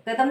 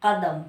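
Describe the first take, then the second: First: कदम with an ordinary k; wrong Hindi sound. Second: कदम with throaty q, carefully said; correct Urdu sound. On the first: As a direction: say कदम without the nukta, plain front क. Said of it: "कदम नहीं". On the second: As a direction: make the क of कदम from far back, Urdu style. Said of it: "Urdu का शब्द है". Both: Shown as a demonstration.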